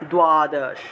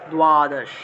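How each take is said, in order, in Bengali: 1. প্রথম ব্যঞ্জনের পরে একটি w-সদৃশ ধ্বনি আসে। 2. প্রথম ব্যঞ্জনের পরে একটি w-সদৃশ ধ্বনি আসে।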